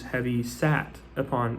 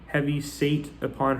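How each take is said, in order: First: The middle word rhymes with 'cat'. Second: The middle word rhymes with 'gate'. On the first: "but obviously this is heavy sat upon" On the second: "it's spelled S A T E"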